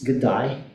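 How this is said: The vowel in day sounds like die. "Yung A naging I"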